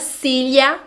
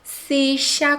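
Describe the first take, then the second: First: The double L has a palatal L-like sound. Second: The double L has a non-lateral, Argentine-style sound. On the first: "Cília com som de L H" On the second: "como os argentinos"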